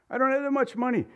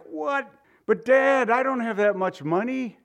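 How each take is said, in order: First: High desperate plea, close to crying; voice breaking. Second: Voice breaking. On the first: Son begging his father in court, voice cracking. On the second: Son pleading with his judge father, near tears. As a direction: beg your father with a cracking voice. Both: Pretend. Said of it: "Your voice breaks and you're ready to cry".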